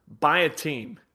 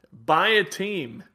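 First: Said in the usual way. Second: Buy a team slowed down, each word weighted; slow, deliberate Buy a team; slow emphatic repeat. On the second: Shown as a demonstration. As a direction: lean on Buy a team, drawn out.

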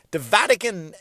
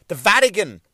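Both takes have the same delivery.

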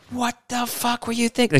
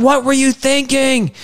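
First: High, soft mock-scolding wife voice; angry wife, exaggerated. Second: High, slow wife's exasperated scolding; the cleaned-up version of her scolding, drawn out; scolding wife, toned down. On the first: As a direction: ham up the wife swearing at him. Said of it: "She didn't say that". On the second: Retold or imitated. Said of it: "But she's like".

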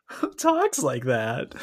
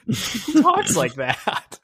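First: Slow, drawn-out and only a little raised; milder mocking repeat. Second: Very high, very slow, drawn-out mock; mocking disbelief. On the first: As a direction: say it again slowly, with less push. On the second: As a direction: stretch it out high to mock the line. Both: Mocking the Sopranos line.

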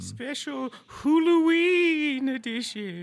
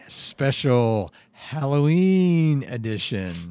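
First: Slow, drawn-out spooky echo. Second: Slow, drawn-out spooky announcement; spooky announcer. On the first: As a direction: echo it like a horror host. Echoing the announcement. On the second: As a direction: draw out Halloween like a horror host. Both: Acted.

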